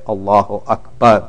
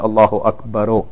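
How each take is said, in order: First: The last word ends on a silent consonant. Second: The last word ends with an added vowel. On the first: The speaker calls it right. "You have to say Allahu Akbar. ... It is majzoom" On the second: The speaker calls it wrong. "Don't say Allahu Akbaru"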